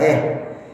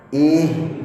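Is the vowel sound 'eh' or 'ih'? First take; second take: eh; ih. First: The vowel is an open 'eh' sound. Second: The vowel is a close 'ih' sound. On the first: The speaker calls it wrong. "jangan eh, bukan eh" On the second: The speaker calls it right. "karena ha"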